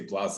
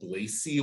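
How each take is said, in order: First: The name is said French-style, ending in 'ay'. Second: The name gets an extra syllable ending in 'ee'. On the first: It sounds overly fancy, as if French. "get like fancy with it and say blase. I'm like, mm, I'm not in France" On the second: It is overdone. "I got a Blazy once. I'm like, you're doing too much"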